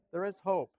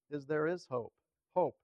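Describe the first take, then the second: First: Raised, louder "there is hope" with weight on "is"; firm push on "is", then fall on "hope"; stress on IS. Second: "hope" said firmly, then repeated alone; stress on HOPE. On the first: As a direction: insist on the word "is". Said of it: "with the emphasis on is". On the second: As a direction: land on "hope" and echo it. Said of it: "But the real emphasis". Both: Shown as a demonstration.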